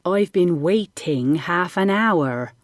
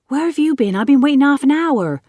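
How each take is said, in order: First: Slow, over-enunciated "waiting" with full -ing; exaggeratedly careful, sarcastic "waiting"; grudging corrected repeat. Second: Put-on high, loud boyish complaint; loud, put-out scolding with a casual accent; indignant cry. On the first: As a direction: repeat it slowly with an eye-roll, stressing "waiting". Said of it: "He rolled his eyes". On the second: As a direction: cry out impatiently at a latecomer. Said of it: "cried Jack". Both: A narrator's reading.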